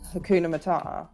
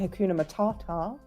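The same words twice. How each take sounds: First: A T sound in Matata is dropped. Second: The T sounds in Matata are clearly pronounced. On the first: The speaker calls it wrong. "I don't pronounce" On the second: The speaker calls it right. "instead of saying"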